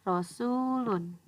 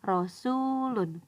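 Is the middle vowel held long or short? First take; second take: long; long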